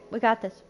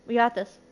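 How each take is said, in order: Both takes have the same delivery.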